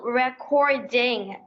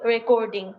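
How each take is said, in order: First: "recording" drawn out slowly, syllable by syllable; native-style pronunciation. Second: "recording" said the everyday Bengali-English way; local Bengali pronunciation. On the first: Learner showing how they say it, slow careful "recording". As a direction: slowly model "recording" as English speakers say it. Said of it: "they pronouncing in different ways". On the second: Learner showing how we say it, Bengali-accented "recording". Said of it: "different from the Bengali accent". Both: Shown as a demonstration.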